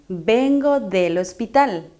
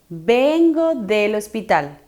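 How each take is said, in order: The two takes are said the same way.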